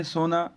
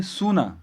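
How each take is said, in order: First: سونا with a long, unrounded o, sohna, meaning gold; soona for gold. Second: سونا with a full oo, soo-na, meaning desolate; soona for desolate. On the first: Teacher contrasting two Urdu words, soh-na meaning gold. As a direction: say سونا as soh-na, the majhool waw. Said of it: "gold". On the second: Teacher contrasting with gold, saying soo-na for desolate. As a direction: round the waw in سونا fully, soo-na. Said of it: "جس کو ہم ویران کہتے ہیں". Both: Shown as a demonstration.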